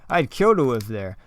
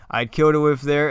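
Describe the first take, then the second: First: Said in the usual way. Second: "I'd kill to live there" said louder, with weight on "kill"; foreshadowing emphasis. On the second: Shown as a demonstration. Author rereads the driver's line to stress foreshadowing, louder with "kill" punched. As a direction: lean on "kill" to hint at what is coming. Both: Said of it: "a lot of foreshadowing there".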